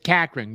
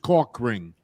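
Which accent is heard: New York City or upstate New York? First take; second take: upstate New York; New York City. First: The vowel sounds flat, like an upstate New York accent. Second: The vowel sounds open, like a New York City accent. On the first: "There's that, you know, upstate New York thing. It's cack ring" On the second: "he's from the city"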